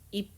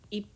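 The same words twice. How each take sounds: No difference in how they are said.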